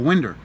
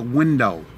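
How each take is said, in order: First: "winder" with a final -er; friend's Tennessee pronunciation. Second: Said in the usual way. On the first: Retold or imitated. Imitating a Tennessee buddy replacing vinyl, "winder" ending in -er. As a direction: end "winder" on an r, Tennessee style. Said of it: "he calls it a winder". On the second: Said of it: "I'm like".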